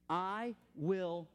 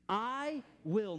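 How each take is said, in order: First: It is spoken at full normal volume. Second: It is spoken loudly with strong authority. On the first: "say it full voice" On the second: "say it with authority"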